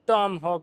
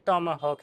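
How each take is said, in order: First: It is said as two syllables, Tom-hawk. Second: It is said as three syllables, Tom-a-hawk. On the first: The speaker calls it wrong. "टॉम हॉक नहीं है" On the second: The speaker calls it right. "ये टॉमा हॉक है"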